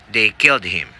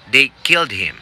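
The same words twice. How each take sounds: First: Said in the usual way. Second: Firm prompt read of "They killed him." with "killed" leaned on; test recording voice. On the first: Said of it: "And you say". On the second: Shown as a demonstration. Coach voicing the test prompt, firm and formal. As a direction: read it like the exam audio. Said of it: "a voice says".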